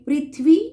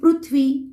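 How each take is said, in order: First: It is pronounced the Hindi way. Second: It is pronounced the Marathi way. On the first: "अब इसे हम पढ़ेंगे पृथ्वी हिंदी में" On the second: "Marathi में पढ़ेंगे"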